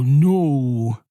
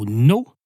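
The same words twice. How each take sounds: First: The word is stretched out and drawn long. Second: The word is said short and sharp. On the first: Stronger pressure; the speaker means business. "I can extend it" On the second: A firm refusal. "The first one sounds pretty strong"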